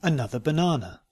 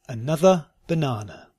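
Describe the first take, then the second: First: "Another banana" run together quickly. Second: "Another banana" slowly, word by word. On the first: Teacher repeating the practice sentence, quickly. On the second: Teacher giving learners a sentence to try, slowly. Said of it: "first slowly and then". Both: Shown as a demonstration.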